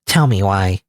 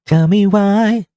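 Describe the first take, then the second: First: Said in the usual way. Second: Higher, slow, dragged-out plea; slow, high pleading tell me why; drawn-out pleading. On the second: Acted. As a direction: stretch out why like begging. Repeats the line two ways.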